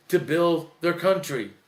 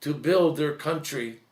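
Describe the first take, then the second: No difference in how they are said.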